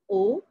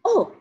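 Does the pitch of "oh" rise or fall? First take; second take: rise; fall. First: The pitch rises, sounding doubtful. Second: The pitch falls, sounding understanding.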